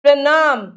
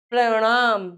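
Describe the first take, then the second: First: प्रणाम punched with plain n; loud, tongue-on-teeth n in प्रणाम; dental-n error. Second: प्रणाम with curled-tongue ṇ; "praṇaam", retroflex nasal. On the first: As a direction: say प्रणाम wrongly as "pranaam". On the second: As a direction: flap the middle of प्रणाम. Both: Shown as a demonstration. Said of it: "न और ण की अशुद्धियां".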